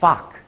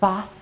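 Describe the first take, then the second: First: The word ends with only a k sound. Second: The word ends with only an s sound. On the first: "or fock" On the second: "they will either say fos"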